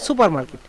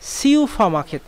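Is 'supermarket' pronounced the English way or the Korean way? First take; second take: English; Korean. First: It begins with 'soo-per', as in English. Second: It begins with 'syu-pha', as in Korean. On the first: The speaker calls it wrong. "অনেকে আবার উচ্চারণ করেন যে সুপার market" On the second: The speaker calls it right. "সেটা হচ্ছে সিউফা মার্কেট"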